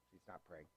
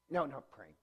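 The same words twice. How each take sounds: First: Soft correction. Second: Said in the usual way. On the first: Real, not acted. Correcting his story to the class, softly. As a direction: drop much softer on the repeat.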